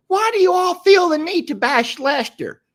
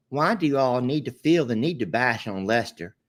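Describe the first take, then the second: First: High, loud, sugary Southern Belle take on a viewer comment. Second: Said in the usual way. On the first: Pretend. Reading a viewer's comment aloud as a Southern Belle. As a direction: play the offended Southern lady defending Lester. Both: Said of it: "in my Southern Belle voice".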